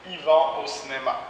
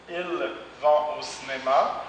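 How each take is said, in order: First: "Ils" said as "i", no L; spoken i vont. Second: Said in the usual way. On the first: Shown as a demonstration. Teacher models spoken "Ils vont au cinéma". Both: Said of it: "le L et le S ne sont pas prononcés".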